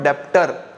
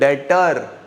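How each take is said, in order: First: A b sound is pronounced before the t. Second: No b sound is heard before the t. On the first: The speaker calls it wrong. "This is not डेप्टर" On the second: The speaker calls it right. "बी silent है"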